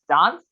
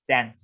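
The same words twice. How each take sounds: First: The word is said in a British accent. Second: The word is said in an American accent. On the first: "In British, you pronounce it as dance" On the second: "In America, you pronounce it as dance"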